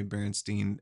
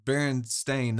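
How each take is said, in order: First: Berenstain ending like "steen"; Berenstain, last syllable "steen"; "steen" pronunciation. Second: Berenstain ending like "stain"; Berenstain, last syllable "stayn"; "stain" pronunciation. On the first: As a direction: say Berenstain with an EE at the end. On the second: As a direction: say Berenstain with a long A at the end. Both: Shown as a demonstration. Contrasts the two spellings aloud.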